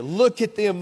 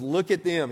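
First: Higher and louder, accusing; raging anger. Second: Said in the usual way. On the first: A narrator's reading. Pastor voicing the enraged psalmist, loud angry. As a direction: jab the word Look as if pointing in fury. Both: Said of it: "He's still raging with anger".

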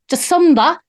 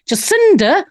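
First: "Jacinda" as "juh-SUN-da", Kiwi-style; put-on New Zealand vowel in "Jacinda"; Kiwi accent on Jacinda. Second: Said in the usual way. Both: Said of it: "going from Australian into K-, Kiwi".

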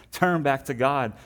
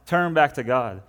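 First: A slow, higher, pleading call; prophet's plea. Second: The same plea, now louder and pressing; prophet's plea. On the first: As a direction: stretch out the plea like a prophet calling the people back. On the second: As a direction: push the repeated call harder, a prophet urging the people. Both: Retold or imitated.

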